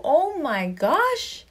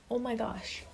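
First: Drawn-out swoon. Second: A hushed, breathy oh my gosh; soft aside. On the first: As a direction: stretch it out like you're melting. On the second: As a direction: say it softly to yourself, almost swooning. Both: Real, not acted. Swooning over uniforms.

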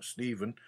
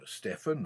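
First: Stephen said STEE-ven with long ee. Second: Stephen said STEFF-en with short e. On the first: Reading scripture, correcting to the other way of saying Stephen. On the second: Reading scripture, trying one way of saying Stephen. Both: Shown as a demonstration. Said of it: "or Stephen".

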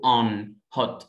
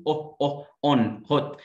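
First: American "on, hot" with open ah; American accent. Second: British "on, hot" with lips rounded on short o; British rounded vowel. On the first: Teacher contrasting with British for students, American accent. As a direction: unround "on" and "hot" to ah, American style. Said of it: "لكن في الأمريكان بقول". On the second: Teacher demonstrating lip rounding, British accent. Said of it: "في البريتش بضم بقي". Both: Shown as a demonstration.

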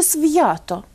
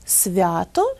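First: Свято with a hard V, then a separate y-glide. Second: Свято with V softened into the vowel, no glide; half-soft V. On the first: Teacher offers the wrong option, hard V in свято. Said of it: "і ніякого «свята» ніхто ніколи не вимовляє". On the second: Teacher offers the usual form, soft V in Свято. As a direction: say Свято as svya-to. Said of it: "як же ми це слово вимовляємо". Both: Shown as a demonstration.

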